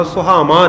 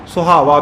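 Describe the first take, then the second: First: ਸੁਹਾਵਾਂ with nasal "maan" ending; ਸੁਹਾਵਾਂ sounding like "suhaamaan"; wrong nasal ending. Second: ਸੁਹਾਵਾ ending in pure oral aa; ਸੁਹਾਵਾ with clean "vaa" ending; without nasal. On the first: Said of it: "ਨਹੀਂ ਕਰਨਾ". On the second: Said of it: "ਬਿੰਦੀ ਤੋਂ ਬਿਨਾਂ ਉਚਾਰਨ ਕਰਨਾ". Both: Shown as a demonstration.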